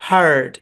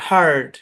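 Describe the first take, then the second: First: American accent, the r sound is pronounced. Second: The same.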